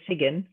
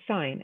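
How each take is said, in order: First: A G sound is pronounced in the middle. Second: No G sound is pronounced at all. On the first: The speaker calls it wrong. "We don't say sigin" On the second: The speaker calls it right. "we say sign"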